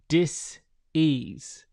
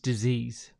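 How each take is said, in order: First: The word is said slowly, split into two parts. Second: The word is said quickly as one smooth unit.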